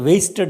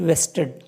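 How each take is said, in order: First: It begins with a w and a long a. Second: It begins with a v and a short e. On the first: The speaker calls it wrong. "Some people will mispronounce like wasted interest" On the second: The speaker calls it right. "Please note that V E S T E D"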